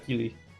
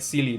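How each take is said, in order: First: The name begins with a K sound. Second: The name begins with an S sound. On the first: "instead of a" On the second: "you pro- still pronounce it pronounce it like an S"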